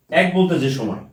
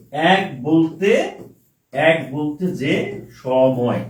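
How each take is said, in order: First: Said in the usual way. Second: Very slow, word by word for writing; slow dictation. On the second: Shown as a demonstration. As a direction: draw each word out for the students to copy. (খুব ধীরে, লিখিয়ে দেওয়ার ভঙ্গিতে) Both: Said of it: "তাহলে option হবে এরকম".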